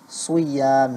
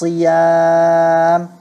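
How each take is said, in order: First: The first syllable carries an extra 'u' sound. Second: The first syllable sounds like a plain 'si'. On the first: The speaker calls it wrong. "muncul seperti huruf waw, suyam, seperti itu kedengarannya" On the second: The speaker calls it right. "cukup seperti itu saja"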